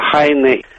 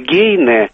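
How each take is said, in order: First: The name starts with a light h sound. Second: The name starts with a g sound. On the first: This is closer to the original German form. "вместо «хайне»" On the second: This is the established Russian form of the name. "Немецкое «гейне» вместо «хайне»"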